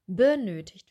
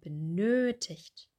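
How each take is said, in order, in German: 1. Die Betonung liegt auf der ersten Silbe. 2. Die Betonung liegt auf der zweiten Silbe. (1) "Wir betonen nicht benötigt" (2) "wir sagen benötigt"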